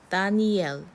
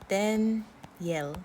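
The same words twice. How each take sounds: First: The middle is a full separate 'ee' vowel. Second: The middle is a quick 'y' glide. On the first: This is the Korean rendering of the name. "Daniel in the Korean" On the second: This is the American English pronunciation. "Like with a Y sound. Like like this"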